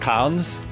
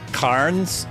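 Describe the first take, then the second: First: The R sound is left out of the name. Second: The R sound is pronounced in the name. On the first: The speaker calls it right. "The R is silent, an Aussie thing" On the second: The speaker calls it wrong. "I had a feeling I was pronouncing it wrong"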